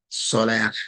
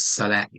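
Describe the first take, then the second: First: The word ends with a heavy h sound. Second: The word ends with a t sound. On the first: "Or sometimes the heavy ha" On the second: "we really shouldn't be pronouncing it by itself as Salat"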